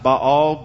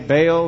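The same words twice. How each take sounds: First: The name is said with a Hebrew pronunciation. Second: The name is said with a Southern US pronunciation. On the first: "the Hebrew word is, you know, pronounced Baal" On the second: "we're in the South, so we say Baal"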